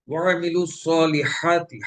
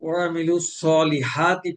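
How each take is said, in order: First: Slow ওয়ামিলু সলিহাতি with the ha pressed in the throat; correct throaty ha. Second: Slow ওয়ামিলু সলিহাতি with a plain airy h; wrong light ha. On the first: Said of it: "গলা চেপে আদায় করতে হবে". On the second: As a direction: say সলিহাতি with a light h, no throat squeeze. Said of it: "হা গলা চেপে আদায় না করি". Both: Shown as a demonstration.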